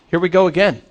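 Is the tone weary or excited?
excited. It is said in an excited, upbeat tone.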